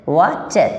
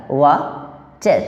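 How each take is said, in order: First: Said in the usual way. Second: water said very slowly, pausing after वाट before the last syllable; water broken slowly at the syllable; split into syllables. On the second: Shown as a demonstration. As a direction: stretch water out and hold on वाट. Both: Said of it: "इतने वाट पर जाके कुछ देर रुकता है".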